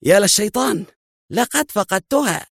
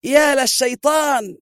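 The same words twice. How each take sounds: First: A dazed, high exclamation; as if the floor just dropped away; shocked mutter of dismay, not shouted; stunned. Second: Very high, slow, full-throated yell; drawn-out cry of rage; furious shout. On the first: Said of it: "وهو يقول في ذهول". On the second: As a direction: roar it as he shoves the guard away. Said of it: "وهو يصرخ". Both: A narrator's reading.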